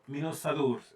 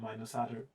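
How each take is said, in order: First: The name is given a more exotic-sounding pronunciation. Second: The name is read plainly as English spelling. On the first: The speaker calls it right. "It has to sound a bit exotic" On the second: The speaker calls it wrong. "what it looks like if you just read it out like in English. That doesn't sound good at all"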